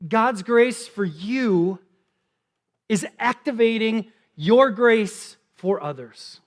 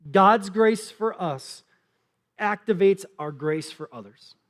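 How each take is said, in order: First: God's grace for you drawn out slowly; slow emphatic repeat. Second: God's grace for us said slowly, word by word; slow dictation. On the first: Pastor repeats the point for note takers, very slow. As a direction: let each word land. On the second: Pastor dictating the key point, slow and deliberate. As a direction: spell it out for note takers. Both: Shown as a demonstration. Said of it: "you can write this down".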